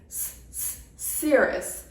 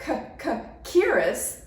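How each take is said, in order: First: The word starts with a hissing S sound. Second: The word starts with a hard K sound. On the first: The speaker calls it right. "it's s-s-cirrus. This kind of C at the beginning of this word has an S sound" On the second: The speaker calls it wrong. "it's not c-c-cirrus"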